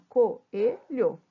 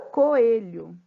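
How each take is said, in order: First: Coelho said syllable by syllable, Co-e-lho; split into syllables. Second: Said in the usual way. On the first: Shown as a demonstration. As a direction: break Coelho into its syllables for the class. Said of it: "Quando eu separo". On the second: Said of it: "encontro das vogais".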